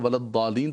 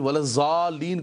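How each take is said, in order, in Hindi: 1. 'wal' के बाद का व्यंजन d-sound है। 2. 'wal' के बाद का व्यंजन z-sound है। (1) "अरब जो है वलद्दालीन पढ़ते हैं" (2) "कहीं भी वलज़ालीन कोई नहीं पढ़ता"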